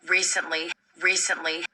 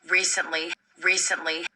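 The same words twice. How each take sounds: Both takes have the same delivery.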